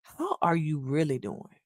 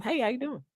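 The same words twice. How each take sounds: First: Sincere, caring. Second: Casual passing greeting. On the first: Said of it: "stops, engages with you, and say these words". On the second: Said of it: "so it's just like". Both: Shown as a demonstration.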